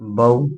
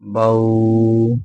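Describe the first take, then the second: First: The vowel glide is short and soft. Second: The vowel glide is drawn out or jerked. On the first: The speaker calls it right. "न खींचेंगे न झटका देंगे, नरमी से मारूफ पढ़ेंगे" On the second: The speaker calls it wrong. "कुछ पढ़ने वाले इसको पढ़ते हैं ... ये सरासर गलत है"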